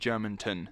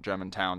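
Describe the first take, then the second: First: The name ends with a short 'ton' sound. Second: The name ends with a full 'town' sound. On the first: The speaker calls it right. "it's actually Germantown" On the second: The speaker calls it wrong. "not Germantown. There's no W in it"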